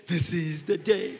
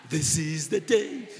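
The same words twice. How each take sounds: The two takes are said the same way.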